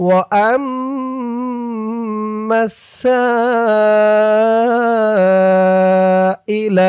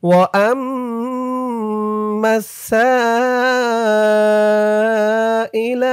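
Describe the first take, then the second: The two takes are said the same way.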